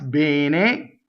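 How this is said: The word is said in a Milanese accent. "If you're in Milan, it's bene"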